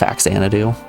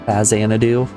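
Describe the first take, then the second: First: The X is said with a ks sound. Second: The X is said with a z sound. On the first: This is how the speaker has always said it. "I've always pronounced it Faxanadu. I refuse to accept that an X makes a Z sound" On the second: Someone else said it this way. "you just said that it was pronounced Faxanadu"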